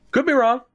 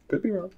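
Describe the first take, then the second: First: Said in the usual way. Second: Could be wrong, dropped soft; quiet aside. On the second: Shown as a demonstration. Gamer repeats could be wrong softly to himself. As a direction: mutter the second could be wrong to yourself.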